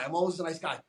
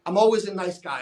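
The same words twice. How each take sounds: First: "always" said lightly, much softer; softer take. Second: "always" pressed firm and a bit louder; emphasis on always. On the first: Coach to client, same line said softer and lighter. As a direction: drop the volume, let "always" slide by easily. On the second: Coach to client, warning with weight on "always". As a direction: lean hard into "always" to warn. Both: Shown as a demonstration. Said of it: "you put a lot of emphasis".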